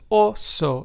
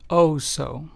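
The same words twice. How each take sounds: First: The o vowels are said the Spanish way. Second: The o vowels are said the English way. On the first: The speaker calls it right. "is pronounced as oso" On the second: The speaker calls it wrong. "and not oso"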